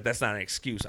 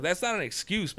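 First: Said in the usual way. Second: Scornful parroting, pitched higher; sarcastic repeat of "That's not an excuse" up high; mocking echo. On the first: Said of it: "He's like". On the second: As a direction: throw the cop's "That's not an excuse" back at him mockingly. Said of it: "I was like".

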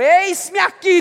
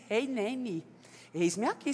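First: Eis-me aqui shouted high and loud; fervent preached cry of eis-me aqui. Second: Softly voiced humble reply; quiet answer. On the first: Acted. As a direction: proclaim eis-me aqui to the whole church. Preacher repeating Ananias's answer loudly. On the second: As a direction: answer gently, bowing to the call. Ananias answering God's call.

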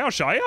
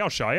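First: Bursting to show the video; eager offer, pitched high. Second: Said in the usual way. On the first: Retold or imitated. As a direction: voice climbs higher, keen to show. Last of repeated offers.

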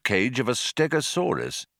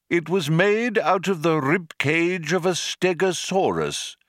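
First: Said in the usual way. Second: Lightly voiced old man, matter-of-fact; a hint of a fussy old man; old man explaining. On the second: A narrator's reading. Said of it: "explained the old man".

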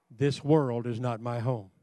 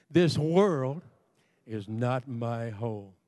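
First: Said in the usual way. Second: "This world" punched and held apart, then "is not my home" slower and falling; emphatic. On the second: Shown as a demonstration. Preacher has congregation say it once more, emphatic "world". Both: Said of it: "Just one more time for emphasis' sake".

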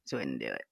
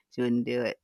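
First: Muttered echo. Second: Said in the usual way. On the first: Real, not acted. Host tells a guest about Siri, quietly echoing herself. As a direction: repeat it much lower and softer, under the breath. Repeats line, then drops it.

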